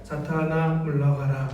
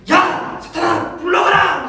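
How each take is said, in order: First: 낮고 작게, 높낮이 없는 기계 말투; 감정을 완전히 빼고 기계처럼 말하기; 감정 없는 전자음. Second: 높고 크게 버럭 지르는 호통; 화가 폭발한 듯 소리치기. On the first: Shown as a demonstration. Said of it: "전자음처럼 감정 없이 소모 없이". (전자음처럼 감정 없이 낮게) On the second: Acted. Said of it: "화를 내고 있어요". (버럭 화내며 외치기)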